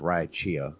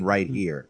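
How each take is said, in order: First: It is said with an exaggerated Southern Louisiana accent. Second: It is said in a plain, neutral accent. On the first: The speaker calls it wrong. "I've met people from Louisiana that would say that" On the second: The speaker calls it right. "when they mean right here"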